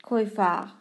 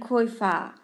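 No difference in how they are said.

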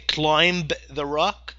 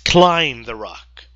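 First: A 'b' sound is heard at the end of 'climb'. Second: No 'b' sound is heard at the end of 'climb'. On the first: The speaker calls it wrong. "You don't say climb the rock" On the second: The speaker calls it right. "No, it's climb the rock"

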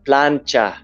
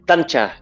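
First: The word begins with a 'pl' sound. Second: The word begins with a 't' sound. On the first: The speaker calls it right. "It's called a plancha" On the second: The speaker calls it wrong. "I would pronounce it like tancha. ... such a heavy Cebuano accent"

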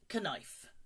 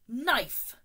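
First: The K at the start is pronounced. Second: The K at the start is silent. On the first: The speaker calls it wrong. "it's not knif. No" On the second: The speaker calls it right. "the K is silent"

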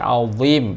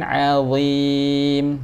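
First: The word is said with strongly rounded lips. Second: The word is said with unrounded, relaxed lips. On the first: The speaker calls it wrong. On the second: The speaker calls it right.

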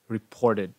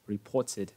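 First: The middle t sounds like a soft d. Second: The middle t is a clear t sound. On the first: "trong cái từ reported nó sẽ biến thành âm âm d" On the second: "theo tiếng British English thì cái này vẫn là âm t"

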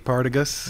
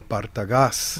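First: The name is said with English pronunciation. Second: The name is said with Spanish pronunciation. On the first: "But in English, it'd be" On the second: "I'll say it correctly"

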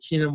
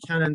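First: The name is said with an Irish pronunciation. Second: The name is said with a Turkish pronunciation. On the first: "The Irish side calls me Keenan" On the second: "The Turkish side calls me Cannon"

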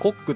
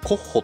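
First: The name ends with a hard k sound. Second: The name ends with a breathy h-like sound. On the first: "ヘッケラー& コックと読むか" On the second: "ヘッケラー& コッホと読むか"

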